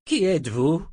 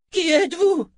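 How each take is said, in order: First: Higher-pitched puzzled question. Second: Very high, loud cry; shouted challenge. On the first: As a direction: ask it with rising puzzlement. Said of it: "demanda-t-il". (interrogatif, voix plus aiguë) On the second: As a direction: shout the question at a stranger. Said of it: "cria-t-il". (cri aigu et fort) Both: A narrator's reading.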